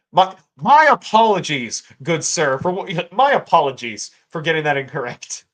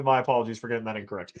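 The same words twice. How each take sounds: First: Overly grand, louder ironic apology; bow and scrape, tongue in cheek; mock formal apology. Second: Quicker, quieter, plainly meant; sincere apology. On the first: Apologizing to a viewer, ironic grand apology. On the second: Real, not acted. Correcting himself to the viewer, a quick sincere apology. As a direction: drop the irony and mean it. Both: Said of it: "Uh, unironically".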